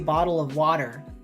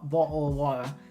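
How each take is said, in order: First: It is said with an American accent. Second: It is said with a British accent.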